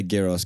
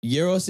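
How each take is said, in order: First: Gyros said with a hard G at the start; anglicised pronunciation. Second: Gyros said as "YEE-ros", with a Y at the start; correct pronunciation. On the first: Speaker defends English-style gyros, with a hard G. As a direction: say gyros like "GEE-ros", G as in get. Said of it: "I would say gyros 'cause we're speaking English". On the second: Friend concedes the correct word, Gyros as "YEE-ros". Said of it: "Gyros is correct". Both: Shown as a demonstration.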